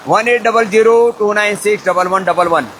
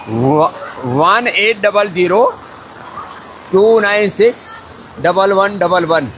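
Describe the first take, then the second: First: Said in the usual way. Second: Slow, in separate groups with pauses; slow dictation. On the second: Real, not acted. Host gives viewers the helpline number, slow dictation.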